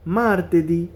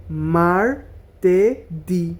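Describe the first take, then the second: First: Said in the usual way. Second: Slow broken syllables; মার্তেদি split into slow syllables. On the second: Shown as a demonstration. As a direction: say মার্তেদি as mar-te-di, slowly. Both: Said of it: "এভাবে syllable ভাঙা ভাঙা".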